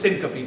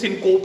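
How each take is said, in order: First: It has three syllables with a reduced middle vowel. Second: It is said with two syllables, ending in p. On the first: The speaker calls it right. "इसको सिनकपी कहना" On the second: The speaker calls it wrong. "इसको सिनकोप नहीं कहना"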